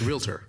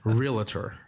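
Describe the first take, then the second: First: The word has no extra syllable in the middle. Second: The word has an extra syllable in the middle. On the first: The speaker calls it right. "It's realtor" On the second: The speaker calls it wrong. "add an extra A there"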